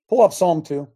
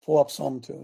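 First: Called out loud, to the producer. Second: Said in the usual way. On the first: Real, not acted. Pastor calls out loud to the producer for the passage. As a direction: boom it out to the back.

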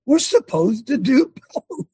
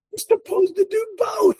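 First: Insistent. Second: High shout, driving the point home. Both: Real, not acted.

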